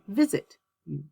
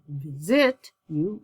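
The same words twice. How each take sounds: First: The stress is on the first syllable of visit. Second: The stress is on the second syllable of visit. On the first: The speaker calls it right. "Same thing with visit" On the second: The speaker calls it wrong. "I don't"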